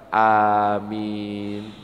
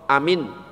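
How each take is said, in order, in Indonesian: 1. Kedua vokal panjang. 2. Kedua vokal pendek. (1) "A-nya panjang, min-nya panjang" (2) "Contoh amin berarti artinya apa? Aman"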